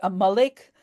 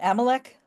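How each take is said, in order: First: The name is pronounced the Hebrew way. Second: The name is pronounced the English way. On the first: "in Hebrew we say Amalek" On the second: "You call him Amalek"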